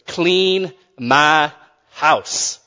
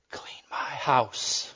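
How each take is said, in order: First: Drawn out. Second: Breathy whispered punchline, very slow; whispered punchline with a laugh. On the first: Repeats punchline drawn out. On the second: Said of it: "and whispered". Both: Acted.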